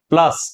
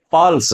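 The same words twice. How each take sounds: First: plus with प run straight into a stressed ल. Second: pulse with the vowel and weight on प; stress on प. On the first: Hindi teacher recapping which letter bears stress, stress on ल in plus. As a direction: put the vowel and the weight after ल in plus. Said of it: "यह बलाघात को वहन कर रहा है". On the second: Hindi teacher recapping the contrast for students, stress on प in pulse. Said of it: "प पे बलाघात हो सकता है". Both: Shown as a demonstration.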